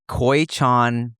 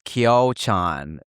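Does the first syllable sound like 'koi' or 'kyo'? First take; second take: koi; kyo. First: The first syllable sounds like 'koi'. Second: The first syllable sounds like 'kyo'. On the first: The speaker calls it wrong. "You say koi chan chicken" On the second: The speaker calls it right. "and it's kyo chan. The Y is"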